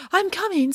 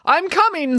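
First: Echoing call. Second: Calling out. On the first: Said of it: "said Echo". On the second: Calling to each other in woods. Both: A narrator's reading.

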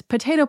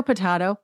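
First: "potato" with a long ay in the middle; usual "potato". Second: "potato" with an ah in the middle; alternative "potato". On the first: Making her point on pronunciation, puh-TAY-toh "potato". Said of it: "my point is". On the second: Making her point on pronunciation, puh-TAH-toh "potato". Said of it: "my point is potato, potato". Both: Shown as a demonstration.

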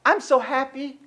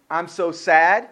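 First: Soft, lightly lifted mock cheer; small put-on happy voice. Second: Low, dropped mock-sad voice; put-on glum voice, sinking low. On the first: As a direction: play at being happy, quietly. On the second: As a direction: drop the pitch and play at being sad. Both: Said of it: "The funny thing about".

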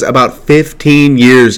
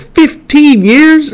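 First: Said in the usual way. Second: High, drawn-out, disbelieving squeal; incredulous echo. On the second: Retold or imitated. [name] repeats Bruce's answer back to him, incredulous. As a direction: stretch FIFTEEN YEARS out way up high, mock shock.

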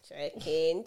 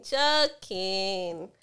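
First: Laughing it off; joking through a laugh. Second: Louder insistent joking. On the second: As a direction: call it out loudly. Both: Real, not acted.

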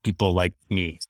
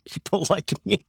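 First: Said in the usual way. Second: Laughing emphasis. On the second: Real, not acted.

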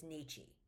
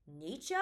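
First: "Nietzsche" ending in "-chee"; "Nietzsche" with a final ee sound; commonly heard pronunciation. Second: "Nietzsche" ending in an unstressed "-cha"; "Nietzsche" with a final uh sound; looked-up pronunciation. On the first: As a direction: say "Nietzsche" as NEE-chee, dropping softly. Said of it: "every time I've ever heard his name". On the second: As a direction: say "Nietzsche" as NEE-cha, tentatively rising. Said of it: "looked up how to say his name". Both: Shown as a demonstration.

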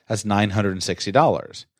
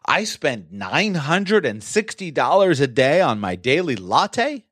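First: Said in the usual way. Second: High, slow, disbelieving question rising at the end; stunned disbelief, pitch leaping on the last word; incredulous tone. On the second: Shown as a demonstration. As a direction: question the expense in drawn-out astonishment. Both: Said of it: "Changes the tone a little bit".

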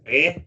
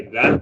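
First: "eh," with the opening th dropped; dialect pronunciation. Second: Said in the usual way. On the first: Shown as a demonstration. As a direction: say "eh," for "the", no th sound. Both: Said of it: "So every "the" was "eh".

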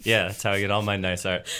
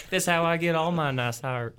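First: Said in the usual way. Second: Put-on Southern Belle accent. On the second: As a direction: play a Southern Belle art thief. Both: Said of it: "Southern Belle high-class art thief".

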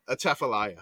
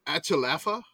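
First: Atchafalaya as "uh-CHAF-uh-lie-uh", lower, falling; correct pronunciation. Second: Achalafa said as a mangled mock guess, syllables swapped; joking mispronunciation. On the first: Shown as a demonstration. Host giving the real answer after kidding, Atchafalaya with CHAF stressed. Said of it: "I'm just playing". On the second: Host kidding the players with a false answer, wrong Achalafa. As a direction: deliberately botch it as Achalafa, deadpan. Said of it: "No, I'm kidding".

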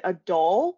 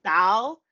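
First: "doll" with a rounded aw vowel, questioning; standard "doll". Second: "doll" with a broad Chicago vowel, nearly "dowl"; accented "doll". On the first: Friend asking what she means, "doll" said the standard way. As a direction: imitate his careful, rounded "doll". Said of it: "I can't say it". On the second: Woman showing her mispronunciation, "doll" as near "dowl". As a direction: say "doll" loud and questioning, vowel spread wide. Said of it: "But I was saying doll". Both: Retold or imitated.

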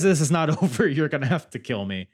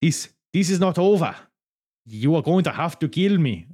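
First: Said in the usual way. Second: Loud, hammed-up Italian accent; Laura Di Matteo. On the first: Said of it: "She, she says". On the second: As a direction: fumble through a mock Italian accent, high and deliberate. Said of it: "What do Italians say like?".

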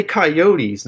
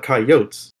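First: "coyotes" said ky-OH-teez; three-syllable pronunciation. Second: "coyotes" said KY-ohts; "coyotes" with no -eez, rhyming with oats; two-syllable pronunciation. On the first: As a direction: end "coyotes" on a clear -eez. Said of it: "You say coyotes, not coyotes". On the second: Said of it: "some people do say coyotes". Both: Shown as a demonstration.

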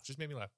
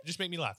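First: Softer echo of the demand; quieter repeat. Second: Said in the usual way. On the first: Shown as a demonstration. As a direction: drop it to an undertone. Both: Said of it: "repeats demand".

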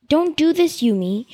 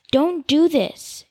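First: Higher plea. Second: Drawn-out, slow pleading "Don't do this."; slow plea. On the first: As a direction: press the plea up a notch. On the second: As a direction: slowly beg her to stop. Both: Acted. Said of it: "he told her".

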